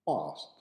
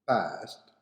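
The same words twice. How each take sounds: First: It is said with a British accent. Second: It is said with an American accent. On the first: "past in British" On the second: "past in American"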